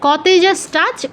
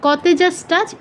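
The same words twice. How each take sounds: The two takes are said the same way.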